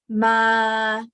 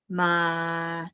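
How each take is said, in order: First: It is said at a middle pitch. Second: It is said at a low pitch. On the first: "mid pitch" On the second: "low pitch"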